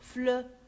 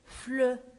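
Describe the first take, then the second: First: The vowel is a rounded eu sound. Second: The same.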